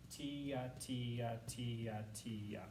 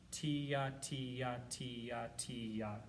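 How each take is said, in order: First: "Tia" with a tongued "t" slurring down, each one softer; tonguing syllables. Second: "Tia" sung as a slur, tongued start sliding down; tonguing syllables. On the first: Teacher repeating the slur pattern for students, fading. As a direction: chant "Tia" falling and fading to soft. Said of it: "tongue the front eighth note and slur down". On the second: Teacher modelling slur-two syllables, fading chant. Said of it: "the syllables that I want you using". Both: Shown as a demonstration.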